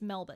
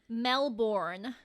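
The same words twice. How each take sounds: First: It has no hard, drawn-out R sound. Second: It has a hard, drawn-out R sound. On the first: The speaker calls it right. "it's Melbourne" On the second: The speaker calls it wrong. "they draw out the R because, like, obviously American accents have that very hard R"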